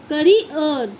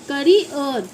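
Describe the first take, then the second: The two takes are said the same way.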